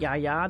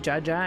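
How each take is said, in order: First: The name begins with a Y sound. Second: The name begins with a J sound. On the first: The speaker calls it wrong. "not Yaya the way I was reading it" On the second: The speaker calls it right. "it should be Jaja"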